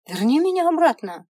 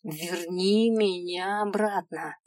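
First: High, loud plea with a fall on меня; desperate plea. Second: Slow, steady верни меня обратно with weight on верни; calm insistence. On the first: Girl begging the imp, loudly desperate. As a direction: cry out верни меня обратно hard. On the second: Girl repeating her demand to the imp, calmly insistent. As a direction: state it slow and firm. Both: Acted.

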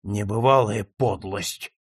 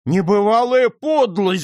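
First: Low, slow, appalled remark; held-in outrage, pitched down; low indignation. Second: High, loud cry of indignation; loud acted outrage, pitch leaping up; outraged shout. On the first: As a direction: say it slowly under a cloud of disgust. First, stunned take before the shout. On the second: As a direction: shout it out, scandalised. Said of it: "закричал нотариус". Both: A narrator's reading.

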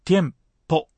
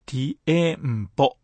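First: ティエンポ in two beats, tiem-po. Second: ティエンポ split into four slow beats, ti-e-n-po; four separate beats. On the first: Teacher models correct Spanish timing, ティエンポ in two beats. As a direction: glide "ie" into one syllable in ティエンポ: tiem, po. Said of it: "二拍で発音しましょう". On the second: Teacher warns learners about timing, ティエンポ chopped into four beats. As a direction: say ティエンポ wrongly as four even, drawn-out beats. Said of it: "四拍にならないように". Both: Shown as a demonstration.

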